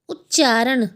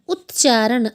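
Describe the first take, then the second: Both takes have the same delivery.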